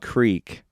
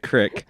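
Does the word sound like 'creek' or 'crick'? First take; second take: creek; crick. First: The vowel is long, like in 'seek'. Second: The vowel is short, like in 'kick'. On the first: This is the standard way of saying it. "It's supposed to be pronounced creek" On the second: This is the local way of saying it. "but we pronounce it crick"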